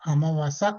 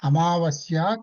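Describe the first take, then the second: First: The word ends with a plain 'sa' sound. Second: The word ends with a 'sya' sound.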